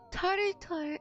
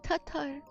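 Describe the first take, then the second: First: An r sound follows the first vowel. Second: No r sound follows the first vowel. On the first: The speaker calls it wrong. "I pronounced it Tartar" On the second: The speaker calls it right. "and not Tatar"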